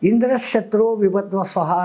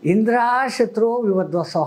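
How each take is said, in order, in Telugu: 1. 'Indra' తర్వాత అచ్చు హ్రస్వం. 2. 'Indra' తర్వాత అచ్చు దీర్ఘం. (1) "అంటాడు ఈయన" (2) "సరిగ్గా వినక"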